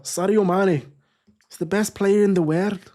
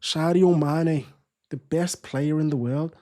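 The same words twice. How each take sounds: First: Higher-pitched, badly faked Scouse; horrible Scouse accent. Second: Slower second go at Scouse; badly faked Scouse, first name drawn out; Scouse accent attempt. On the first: Football streamer hamming up praise of Sadio Mane, horrible Scouse accent. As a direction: have a poor go at a Scouse accent. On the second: Streamer retrying his praise of Sadio Mane, slow Scouse accent. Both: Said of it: "Horrible Scouse accent".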